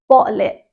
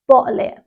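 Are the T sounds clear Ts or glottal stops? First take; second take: glottal stop; glottal stop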